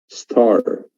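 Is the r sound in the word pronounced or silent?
pronounced. The r sound after the vowel is clearly pronounced. "In American accent, we have very clear re"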